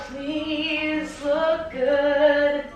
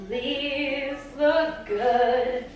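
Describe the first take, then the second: No difference in how they are said.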